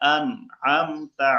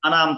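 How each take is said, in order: First: A throat sound is heard before 'am'. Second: The syllables run together without the throat sound. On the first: The speaker calls it right. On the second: The speaker calls it wrong.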